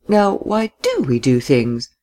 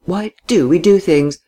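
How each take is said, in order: First: Slow, puzzled repetition; deliberate, drawn-out wondering; pondering. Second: Higher, puzzled question; pondering a riddle in a raised voice; puzzled repetition. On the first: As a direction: mull the question over, stretching "do". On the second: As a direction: puzzle over it aloud, voice lifted. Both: A narrator's reading. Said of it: "as if answering a conundrum".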